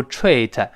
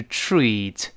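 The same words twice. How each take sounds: First: "treat" said with a hard separate t and r; wrong treat. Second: "treat" starting with a ch-like tr and a long ee; correct treat. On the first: Teacher demonstrates the mistake in "treat". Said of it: "不要读treat". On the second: Teacher models the correct "treat". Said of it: "发ch，ch". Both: Shown as a demonstration.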